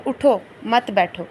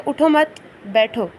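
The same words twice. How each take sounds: First: "اٹھو" on its own, then "مت بیٹھو" joined; pause after اٹھو. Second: "اٹھو مت" as one phrase, long break, then "بیٹھو"; pause after مت. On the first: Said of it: "نیچے لکھا ہے". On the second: Teacher reading out the upper line, pause after مت. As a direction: hold a clear gap before بیٹھو. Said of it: "اوپر میں لکھا ہے". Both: Shown as a demonstration.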